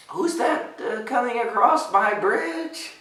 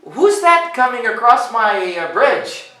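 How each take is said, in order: First: High, slow, hesitant question; nervous ogre. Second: High, loud, cheery call; cheerful ogre. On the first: Acted. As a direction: ask timidly, drawing it out. Nervous ogre asks bigger goat. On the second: A narrator's reading. Ogre to the goat on his bridge, cheerful. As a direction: call it out brightly with a little hesitation. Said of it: "the ogre asked cheerfully".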